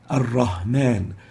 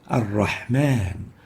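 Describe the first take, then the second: First: It has a light h from the lower throat. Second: It has a tight h from the mid-throat. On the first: The speaker calls it wrong. "they would mistakenly say" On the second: The speaker calls it right. "The proper way to pronounce those is with the ha"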